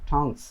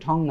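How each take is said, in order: First: The word ends with a final s sound. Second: The word ends without a final s sound. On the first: The speaker calls it right. "শুধু ঠংস" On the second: The speaker calls it wrong. "এটা ঠং না"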